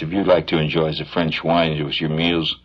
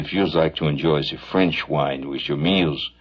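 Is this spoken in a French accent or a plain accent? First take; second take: plain; French. First: It is read in a plain, unaccented voice. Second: It is read in a slurred French accent.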